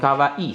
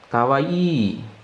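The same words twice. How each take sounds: First: The final i vowel is short. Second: The final i vowel is long. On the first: The speaker calls it wrong. "bukan kawaii saja" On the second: The speaker calls it right. "Jadi ada dua ya untuk kawaii"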